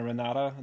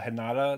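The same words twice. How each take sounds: First: The R sounds like an English R. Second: The R sounds like an H. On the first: The speaker calls it wrong. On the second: The speaker calls it right.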